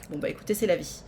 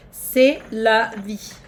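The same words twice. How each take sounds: First: Said in the usual way. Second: Slow resigned. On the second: Pretend. Resigned drawl repeat.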